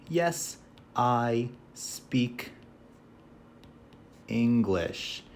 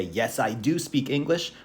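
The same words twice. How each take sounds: First: Drawn out with long pauses; slow simple answer. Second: Said in the usual way. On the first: Shown as a demonstration. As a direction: stretch the short answer. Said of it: "we just say simply". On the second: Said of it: "You can say".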